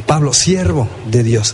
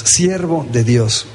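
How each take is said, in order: First: Said in the usual way. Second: Siervo de Dios slowed right down and dropped lower, leaning on siervo; slow emphasis. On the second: Shown as a demonstration. Preacher pressing the word siervo on the congregation, slow and lower. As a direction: let siervo sink in slowly and low. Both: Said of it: "la palabra siervo".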